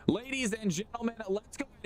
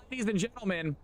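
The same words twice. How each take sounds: First: Even higher showman call; hype announcer, higher. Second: High showman call; hype announcer. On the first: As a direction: lift the call up for the crowd. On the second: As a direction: call out to the crowd. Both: Acted. Restarting hype intro.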